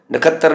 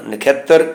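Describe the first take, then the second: First: ਨਖੱਤਰ as nakhattar, without the y glide; mistaken pronunciation. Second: ਨਖੇਤਰ as nakh-yet-tar; half-y pronunciation. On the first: Teacher showing what to avoid, glide left out. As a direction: drop the glide, short a after kh in ਨਖੱਤਰ. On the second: Teacher correcting the word, half-y pronunciation. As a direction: glide from kh into e in ਨਖੇਤਰ. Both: Shown as a demonstration. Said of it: "ਨਖੱਤਰ ਨਹੀਂ ਬਣਨਾ".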